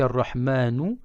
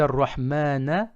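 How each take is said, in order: First: The word ends with an u vowel. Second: The word ends with an a vowel. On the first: The Merciful is the one who fears. "il y a une damma, le son OU" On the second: The Merciful is the one who is feared. "il y a une fatha, le son A"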